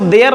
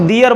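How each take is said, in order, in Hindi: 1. स्वर 'day' जैसा सुनाई देता है, इसलिए 'day-ur' बनता है। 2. स्वर 'dee' जैसा सुनाई देता है, इसलिए 'dee-ur' बनता है। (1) "इसको देयर नहीं बोलेंगे" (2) "इसको दियर बोलेंगे"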